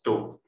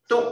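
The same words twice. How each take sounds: First: Low, short checked tone on 嘟; 嘟 as a short low syllable; fourth tone. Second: High, short forceful tone on 嘟; 嘟 as a short high punch; eighth tone. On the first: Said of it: "四声是低低音". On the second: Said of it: "八声是悬的低音". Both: Shown as a demonstration.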